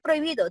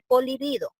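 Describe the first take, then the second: First: The word begins with a pr cluster. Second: The word begins po followed by an l sound. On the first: The speaker calls it right. "No dice prohibido" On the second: The speaker calls it wrong. "dice polibido"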